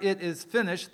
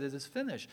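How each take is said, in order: First: Loud cry. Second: Said in the usual way. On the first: Acted. Jesus cries out on the cross.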